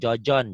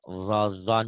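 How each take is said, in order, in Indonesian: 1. Konsonan pertama adalah bunyi j lembut. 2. Konsonan pertama adalah bunyi z, ditarik ke dalam. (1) "jangan jojon" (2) "pengucapannya ditarik ke dalam"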